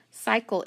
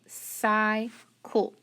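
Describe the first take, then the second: First: Said in the usual way. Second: "cycle" very slowly split as sy-cul; sounded out by syllable. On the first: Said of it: "This is cycle". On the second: Shown as a demonstration. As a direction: stretch CYCLE into two separate syllables. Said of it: "cross off the E, so".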